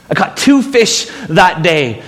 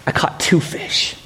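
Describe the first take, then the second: First: Said in the usual way. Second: Hushed, breathy whisper, then said aloud. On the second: Acted. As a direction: breathe it like a secret. Whispered aside then repeated aloud.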